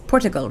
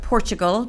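First: PORTUGAL with a clean "t", no "ch"; corrected pronunciation. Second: PORTUGAL with a "ch" sound in the middle; common mispronunciation. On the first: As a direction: say Portugal as "POR-tuh-gul". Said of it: "but it's Portugal". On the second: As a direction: say Portugal as "POR-chuh-gul". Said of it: "some people call it Portugal". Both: Shown as a demonstration.

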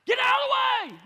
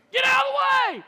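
First: A much higher, much louder yell; road rage yell. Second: A much higher, much louder yell at another driver; road rage yell. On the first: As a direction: blast it like a driver losing it. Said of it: "I did that voice right there". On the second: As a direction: blast it at the car ahead. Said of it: "by yelling at 'em". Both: Retold or imitated.

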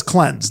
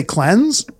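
First: Said in the usual way. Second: "cleanse" ending on a rise like a question; rising question tune. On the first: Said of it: "Nobody says cleanse. They say cleanse". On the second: Shown as a demonstration. Mocking how LA kids say it, with a questioning rise. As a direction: lift "cleanse" up as if asking. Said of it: "They say it as a question".

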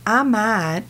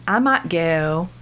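First: Said in the usual way. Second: "I might go" with flat ah vowels and no glide; Southern I in "I might go". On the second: Shown as a demonstration. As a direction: say "I" and "might" as a single ah sound. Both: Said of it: "switch your I's".

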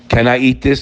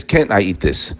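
First: Said in the usual way. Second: "Can't" stressed, lower and softer, falling; lower counter-question. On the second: Shown as a demonstration. Preacher voicing the doubter's lower counter-question. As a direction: turn it around: "Can't I eat this?" low with weight on "Can't".

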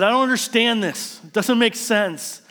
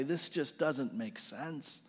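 First: Higher, louder anguished cry; a loud raised protest, slowing on the last words; yelling at God. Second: Slow, much softer, hushed bewilderment; soft and slow, nearly under the breath; quiet despair. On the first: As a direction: throw it up at the sky in frustration. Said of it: "I yelled at God". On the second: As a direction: murmur it to yourself, worn out. Opening, quiet echo of cry. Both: Retold or imitated.

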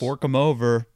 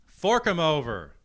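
First: Gleeful greedy snarl; greedy demand. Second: Higher, louder greedy echo. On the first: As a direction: demand the cash with relish. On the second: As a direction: shout it back greedily. Echoes the demand louder. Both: Pretend.

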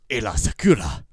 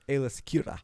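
First: Loud, emphatic AAYLA SAKURA; showy name delivery. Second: Said in the usual way. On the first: Shown as a demonstration. Host shows off his way of saying the name, loud and showy. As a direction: belt out "Aayla Sakura" with a flourish. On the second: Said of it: "Mine's, uh".

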